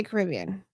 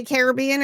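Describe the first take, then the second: First: Caribbean said as kuh-RIB-ee-un; stress on second syllable. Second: Caribbean said as CARE-uh-BEE-un; stress on third syllable. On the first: Host polls chat on pronunciation, Caribbean as kuh-RIB-ee-un. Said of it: "or do you say Caribbean". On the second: Host polls chat on pronunciation, Caribbean as CARE-uh-BEE-un. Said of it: "Do you guys say Caribbean or". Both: Shown as a demonstration.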